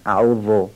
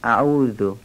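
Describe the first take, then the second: First: The 'dh' sound is heavy and thick. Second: The 'dh' sound is light and thin. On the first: The speaker calls it wrong. "بعضیا ذال رو درشت میگن، شبیه زای دستدار میگن" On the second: The speaker calls it right. "نوک زبانی و نازک تلفظ کنیم"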